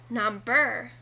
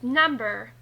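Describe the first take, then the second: First: The stress is on the second syllable. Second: The stress is on the first syllable. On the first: The speaker calls it wrong. "and not number" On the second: The speaker calls it right. "it is pronounced number"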